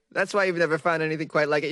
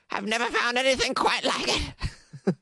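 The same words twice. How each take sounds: First: Said in the usual way. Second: High, put-on elderly voice; Carrie, ancient woman. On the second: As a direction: play a centuries-old lady, pitched way up. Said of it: "That's how she talks".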